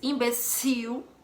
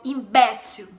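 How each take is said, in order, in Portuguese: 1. A sílaba tônica de "imbecil" está na última. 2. A sílaba tônica de "imbecil" está na do meio. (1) "sílaba tônica no cio" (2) "A sílaba tônica, no caso aí, é no E, B E"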